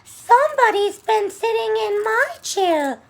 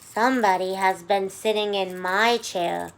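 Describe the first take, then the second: First: It is said in Baby Bear's high squeak. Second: It is said in Mama Bear's sweet, low voice.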